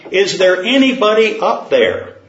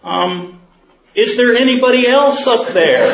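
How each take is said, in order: First: Raised, higher call upward; mild acted yell. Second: Much higher and louder, pleading; desperate man. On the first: Man on the cliff yells up for anyone, mildly raised. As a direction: shout up to the sky, not full force. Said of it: "Finally he yelled". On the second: Acted. Man on the cliff asks for someone else, high and desperate. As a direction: squeal it out, comically desperate.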